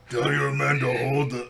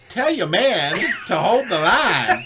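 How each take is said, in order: First: A gruff, monster-like put-on voice. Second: A heroic leader-style put-on voice. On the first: "That's not right. ... sounds like Hulk more" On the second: "Channel my inner Chris Evans for a minute"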